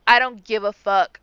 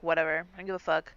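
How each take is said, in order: First: Louder, with the stress landing on "I"; emphatic repeat. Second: Low, offhand brush-off of "fuck"; dismissive shrug. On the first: Shown as a demonstration. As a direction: punch "I" and drop the pitch on "fuck". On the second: Retold or imitated. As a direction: toss off "I don't give a fuck" like it's nothing. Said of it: "so she's like".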